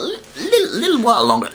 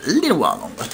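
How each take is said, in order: First: Little squeaked very high through a laugh; playful squeak. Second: Said in the usual way. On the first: Acted. Teasing that Rick Steiner keeps the belt, a high laughing squeak.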